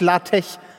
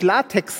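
First: The word ends with a ch sound. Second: The word ends with a ks sound. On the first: "sage ich Latech" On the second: "wenn ich Latex sagen möchte"

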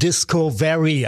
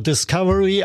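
First: The 'Disco' part is strongly emphasized. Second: The 'Disco' part is not emphasized. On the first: It highlights the word disco. "also sehr Disco betont" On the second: It is the ordinary English word for discovery. "einmal das englische Wort für Entdeckung"

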